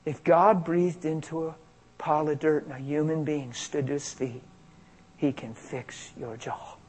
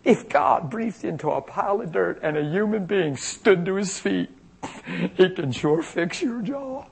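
First: Softly reported thought, sinking away; inner thought. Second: Higher-pitched, lightly giddy retelling; silly delight. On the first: Hearing a thought before praying, hushed inner voice. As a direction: let it arrive quietly, trailing very soft. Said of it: "I hear this thought". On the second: Minister telling the girl his amazing thought, silly delight. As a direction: share the thought as if tickled by it. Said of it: "silly about it". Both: Retold or imitated.

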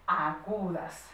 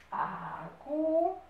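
First: Said in the usual way. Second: Very slow, higher, "Agudas" in stretched syllables; syllable-by-syllable dictation. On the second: Shown as a demonstration. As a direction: stretch "Agudas" out for pupils writing.

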